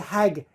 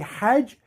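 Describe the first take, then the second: First: It is said with a hard 'g' sound. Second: It is said with a soft 'j' sound.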